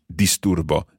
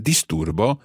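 First: Said in the usual way. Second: "Disturbo" rising at the end; question intonation. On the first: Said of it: "then you would just say". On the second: Shown as a demonstration. Teacher making the word a question, rising intonation. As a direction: say "Disturbo" as a question, voice lifting on the last syllable. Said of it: "making it a question".

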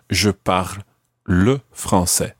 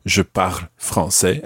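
First: "le" set apart and drawn out after a short pause; slow down and single out the word "le"; stress on LE. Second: Said in the usual way. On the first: Shown as a demonstration. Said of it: "didn't need to use the word le". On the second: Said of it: "as opposed to".

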